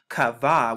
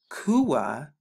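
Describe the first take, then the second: First: The middle consonant is a v sound. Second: The word ends in a u-a sound. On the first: The speaker calls it wrong. "they pronounce it here in Strong's H6960" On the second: The speaker calls it right. "the q, the u, and then the ah right here to get kua"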